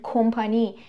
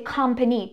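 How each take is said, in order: First: It has a Persian-style pronunciation. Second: It has an English-style pronunciation. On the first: The speaker calls it wrong. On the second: The speaker calls it right.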